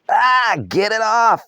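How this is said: It is said in a panicked voice.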